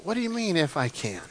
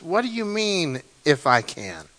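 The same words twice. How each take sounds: First: Much softer, a quiet, wondering question; Jesus incredulous, hushed. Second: Softer, a touch of disbelief, the pitch falling steeply at the end; Jesus incredulous. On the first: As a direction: let the doubt sink in, almost whispered. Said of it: "I would love to have been in that crowd". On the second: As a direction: ask it gently, surprised at the doubt. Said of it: "twenty-three says". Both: Acted.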